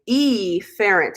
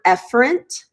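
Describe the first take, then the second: First: The first vowel is exaggerated and drawn out. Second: The first vowel is said the usual way. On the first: The speaker calls it wrong. "I like to mispronounce it on purpose because E for exits" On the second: The speaker calls it right. "you pronounce this word efferent"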